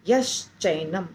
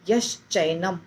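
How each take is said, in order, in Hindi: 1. शब्द मिलकर एक ही जुड़ा हुआ शब्द बन जाते हैं। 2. शब्द मिलकर एक ही जुड़ा हुआ शब्द बन जाते हैं।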